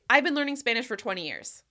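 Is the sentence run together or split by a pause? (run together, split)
run together. It is said fast without any pause. The speaker calls it wrong. "It sounds really fast and hard to understand"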